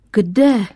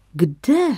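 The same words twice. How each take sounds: First: A louder, mock-alarmed question; feigned fright. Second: A mock-surprised little question, lightly played; asking as if surprised, not really; feigned surprise. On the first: Father hamming up alarm at wife's trip, mock fright. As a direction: pretend to be startled by the answer. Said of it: "předstíral tatínek úlek". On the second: Father hears wife's India plan, mock surprise. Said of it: "zeptal se na oko udiveně".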